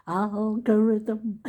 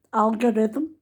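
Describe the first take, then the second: First: "Algorithm" drawn out slowly, syllable by syllable. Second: "Algorithm" said out carefully, rising at the end. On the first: Lingering over "Algorithm" now she can say it. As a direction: savour each syllable of "Algorithm". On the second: Proudly showing she can say "Algorithm". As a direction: show off saying "Algorithm" properly. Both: Shown as a demonstration. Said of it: "I know how to say it".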